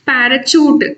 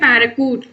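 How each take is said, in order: First: The last syllable begins with a ch sound. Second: The last syllable begins with a k sound. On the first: "పారాచూట్ అనలేం" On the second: "పారాకూట్ అనలేం"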